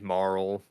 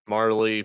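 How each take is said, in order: First: The name has one syllable, ending in an l sound. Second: The name has two syllables, ending in an ee sound. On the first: The speaker calls it wrong. "Marl sounds weird" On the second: The speaker calls it right. "I would go with Marley"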